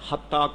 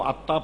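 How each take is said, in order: First: The word begins with an h sound. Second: The word begins directly with a vowel. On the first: The speaker calls it right. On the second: The speaker calls it wrong.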